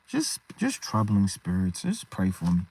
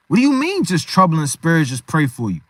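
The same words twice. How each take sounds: First: Downcast, troubled. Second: Incredulous challenge. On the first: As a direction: sound worn down by your troubles. Acts out troubled believer asking prayer. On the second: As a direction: throw the meek words back in disbelief. Friend challenges the meek reply. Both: Acted.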